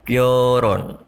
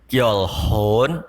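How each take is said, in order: First: No h sound is heard in the middle. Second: An h sound is heard in the middle. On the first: The speaker calls it right. "tapi gyorun" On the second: The speaker calls it wrong. "Dibaca bukan gyolhon"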